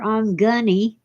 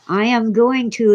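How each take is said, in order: First: The phrase is reduced to 'I'm gunny'. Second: Every word is said fully and separately. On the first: The speaker calls it wrong. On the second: The speaker calls it right.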